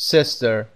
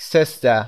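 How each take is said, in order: First: Sister with an American final R; American accent. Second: Sister with a British silent R; British accent. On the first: Teacher contrasting with British for learners, American accent. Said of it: "امریکن هست". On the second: Teacher giving learners the British variant, British accent. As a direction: say sister the British way, dropping the final R. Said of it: "و یا در بریتیش". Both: Shown as a demonstration.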